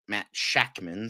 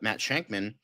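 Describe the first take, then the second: First: No n sound comes before the k. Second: An n sound comes before the k. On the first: The speaker calls it right. "but it's Shackman" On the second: The speaker calls it wrong. "I always think it's Shankman"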